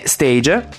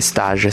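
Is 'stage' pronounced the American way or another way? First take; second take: American; another way. First: The word is pronounced the American English way. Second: The word is pronounced in a non-American way. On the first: The speaker calls it wrong. "Io lo dico all'americana" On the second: The speaker calls it right. "so che si dovrebbe dire stage"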